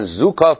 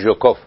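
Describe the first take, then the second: First: The name begins with a 'z' sound. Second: The name begins with a 'zh' sound. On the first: This is how English speakers say it. "به قول انگلیسی زبان ها میگن زوکوف" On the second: This is how Persian speakers say it. "ما میگویم ژوکوف"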